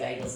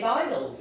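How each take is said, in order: First: The word is said the American way, bagels. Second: The word is said the British-Jewish way, beigels.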